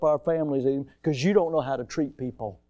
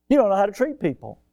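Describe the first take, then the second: First: Said in the usual way. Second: Raised, faster, punching the line; louder firmer repeat. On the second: Real, not acted. Pastor repeating his rebuke to the rude man, louder. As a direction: drive the point home, louder. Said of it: "repeated with force".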